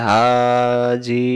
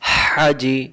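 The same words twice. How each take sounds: First: The first vowel is drawn out long. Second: The first vowel is short and quick. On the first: The speaker calls it wrong. "আর আমি যদি বলি হাজি, ভুল।" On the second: The speaker calls it right. "হারকাতের উচ্চারণ তাড়াতাড়ি পড়তে হয়।"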